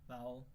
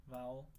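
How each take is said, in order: Both takes have the same delivery.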